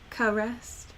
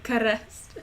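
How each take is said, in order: First: The r is plain, with an ordinary English accent. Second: The r is rolled, with a Spanish-sounding accent. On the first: The speaker calls it right. "instead of caressed" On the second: The speaker calls it wrong. "I was rolling it all together"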